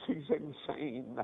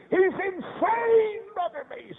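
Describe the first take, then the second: First: Low, soft, slow repetition; subdued grief. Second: High, very slow imitated wail; anguished outcry. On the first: Retold or imitated. Mother repeating the news to the preacher, low and soft. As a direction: drop to a spent, hushed lament. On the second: Mother telling the preacher about her institutionalized son, high wailing grief.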